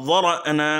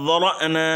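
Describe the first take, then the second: No difference in how they are said.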